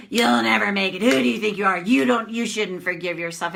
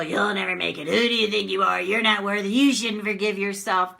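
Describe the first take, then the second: First: A hint of a harsh critic, pushed louder; lightly voiced scolding bully; mock nasty inner critic jeering. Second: A hint of a cold critic, lightly voiced; mock bully sneering at you; understated nasty inner critic. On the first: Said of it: "It sounds like that". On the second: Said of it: "That's the bully".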